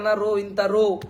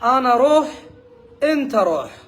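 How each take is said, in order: First: The Arabic words are pronounced carelessly, sounds dropped. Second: The Arabic words are pronounced carefully, sounds complete. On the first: The speaker has not learned the Arabic letters. The speaker calls it wrong. "সে হয়তো বলে যে" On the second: The speaker has learned the Arabic letters. The speaker calls it right. "তখন সে বলবে যে"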